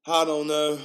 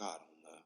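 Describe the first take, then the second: First: Raised, loud reply; emphatic, raised-voice reply; louder answer. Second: Low, very soft mumble; barely-there low reply; subdued answer. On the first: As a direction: push it out high and loud. Same answer repeated louder. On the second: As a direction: trail it off low under your breath. Retold answer, then repeated louder. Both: Retold or imitated.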